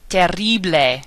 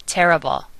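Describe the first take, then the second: First: Spanish "Terrible", as "teh-RREE-bleh"; Spanish rolled R. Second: Said in the usual way. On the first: Shown as a demonstration. Teacher giving words to practice, rolled R in "Terrible". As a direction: trill the RR in "Terrible". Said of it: "the rolling R sound". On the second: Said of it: "similar and mean the same thing".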